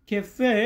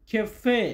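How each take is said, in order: Both takes have the same delivery.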